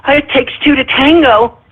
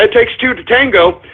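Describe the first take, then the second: First: A light mock of a protester's excuse; lightly mocked objector. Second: Said in the usual way. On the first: Host mimicking single mothers' expected comeback, lightly mocked objector. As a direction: toss it out as someone else's feeble objection. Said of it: "they're gonna say".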